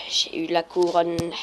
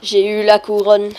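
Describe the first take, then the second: First: Slow, subdued repeat. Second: Louder, punchy call; a loud little victory call; loud announcement. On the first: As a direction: draw it out without the punch. Repeats it slower, lower. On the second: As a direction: announce it loudly to the viewers. Announces getting the crown. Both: Real, not acted.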